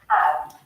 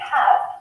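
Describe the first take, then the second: First: The H at the start is dropped. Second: The H at the start is pronounced. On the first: "the H at the start of words is often not sounded out" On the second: "instead of saying have"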